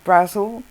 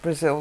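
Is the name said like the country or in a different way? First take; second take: different; country-like. First: It sounds unlike the name of the country. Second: It sounds like the name of the country. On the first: The speaker calls it right. "but it's actually Brazil" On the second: The speaker calls it wrong. "they pronounce it Brazil like the country"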